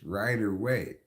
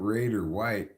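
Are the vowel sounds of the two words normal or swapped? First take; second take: normal; swapped. First: The vowel sounds of the two words are normal. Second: The vowel sounds of the two words are swapped. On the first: The speaker calls it right. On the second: The speaker calls it wrong.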